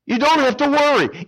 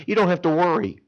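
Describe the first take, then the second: First: Much higher and louder, ringing out; emphatic reassurance. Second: Said in the usual way. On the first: Acted. Preacher loudly reassures the congregation not to worry. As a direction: lift it up to lift them up. Preacher stresses repeated line.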